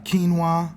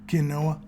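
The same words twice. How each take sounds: First: The word is said the usual, standard way. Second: The word is said with a rustic country pronunciation.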